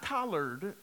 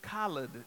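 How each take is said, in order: First: The R sound is clearly pronounced. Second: The R sound is dropped. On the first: The speaker calls it wrong. "not collard" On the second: The speaker calls it right. "no R, that's right"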